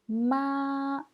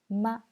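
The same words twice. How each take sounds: First: The pitch stays high and level. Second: The pitch is short, light and unstressed. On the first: "Premier ton"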